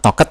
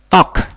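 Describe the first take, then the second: First: The ending is read out fully as 'ed'. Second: The ending is a short 't' sound. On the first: The speaker calls it wrong. "bukan talked" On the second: The speaker calls it right. "tapi talk"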